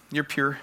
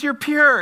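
First: Said in the usual way. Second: "You're pure" high and loud; "pure" punched out in a raised, falling cry; emphatic declaration. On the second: Retold or imitated. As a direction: proclaim "You're pure" with full force. Said again on her impassioned demand.

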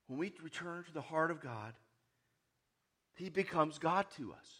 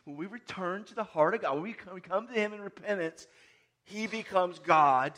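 First: Said in the usual way. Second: Louder, slowing down on "he becomes God"; emphatic repeat. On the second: Shown as a demonstration. Preacher repeating the point so the congregation hears. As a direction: drive home "God" with a strong falling stress. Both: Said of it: "Did you hear that?".

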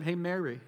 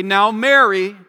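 First: Casual gentle address. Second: Loud, firm challenge by name; exhorting. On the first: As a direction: say the name lightly, as if across the table. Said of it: "he just said". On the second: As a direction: admonish her with weight on the name. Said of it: "having to exhort her or challenge her". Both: Retold or imitated.

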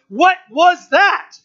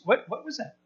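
First: High, loud, drawn-out astonishment; startled crowd. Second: Hushed, halting curiosity; curious onlooker. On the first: Crowd hearing the mighty rushing sound, startled. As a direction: exclaim it slowly, stressing each word. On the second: Onlookers who heard a sound, quietly curious. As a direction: wonder it softly, almost to yourself. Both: Acted.

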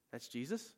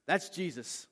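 First: Rising, wondering question; questioning disbelief. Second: Higher, emphatic announcement; excited realization. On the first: Peter stops hauling fish, questioning in disbelief. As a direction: ask it as if it is just sinking in. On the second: John to Peter on spotting Jesus, excited announcement. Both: Retold or imitated.

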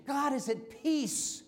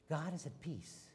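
First: Slow, higher, ringing proclamation of peace; proclaimed. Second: Much softer, settled and calm; hushed. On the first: Preacher announcing to the congregation, slow and raised. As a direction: lift it up and stretch every word. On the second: Preacher letting the congregation feel the calm, softly. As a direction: let it sink in gently, almost resting. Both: Shown as a demonstration.

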